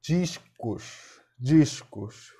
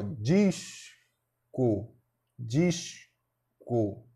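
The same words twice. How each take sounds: First: Said in the usual way. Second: "disco" split slowly as dis... co; syllable by syllable. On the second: Shown as a demonstration. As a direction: hold dis, pause, then a separate co in "disco". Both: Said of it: "Bora fazer a separação silábica de discos".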